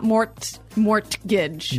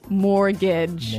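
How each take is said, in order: First: The T sound in the middle is pronounced. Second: The T sound in the middle is silent. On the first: The speaker calls it wrong. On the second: The speaker calls it right.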